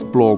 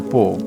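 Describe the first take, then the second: First: The word has an l sound after p. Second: The word has no l sound after p. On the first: This is the adult pronunciation. "n-am zis plouă cu dicția de acum" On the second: This is the small child's pronunciation. "am zis ceva de genul pouă"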